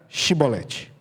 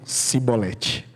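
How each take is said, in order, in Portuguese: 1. A palavra começa com um som de 'sh'. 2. A palavra começa com um som de 's'. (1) "Então diga Shibolete" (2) "Aí eles diziam Sibolete"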